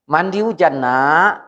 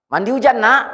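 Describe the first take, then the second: First: It is said in a calm, neutral tone. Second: It is said in an angry tone.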